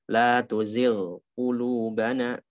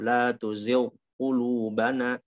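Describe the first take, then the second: First: The gh sound is fully pronounced before the q. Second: The gh sound is merged into the q. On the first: The speaker calls it right. "disempurnakan dulu ghainnya" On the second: The speaker calls it wrong. "Akhirnya ghainnya hilang"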